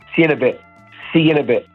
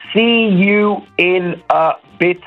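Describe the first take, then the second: First: The words are shortened and run together. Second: Every word is pronounced fully and separately.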